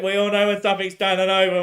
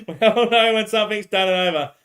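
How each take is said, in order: First: Said in the usual way. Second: Repeated through a laugh, higher; laughing it back. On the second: Real, not acted. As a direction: laugh the line out again.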